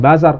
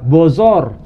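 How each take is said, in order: First: The vowels are pronounced as open 'a'. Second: The vowels are pronounced as rounded 'o'. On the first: This is the local form of the word. "yang bahasa Parsinya bukan bazar" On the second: This is how Persians pronounce it. "Orang Parsi itu huruf A itu dilafalkan jadi O"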